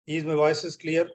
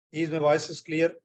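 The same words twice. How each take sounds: The two takes are said the same way.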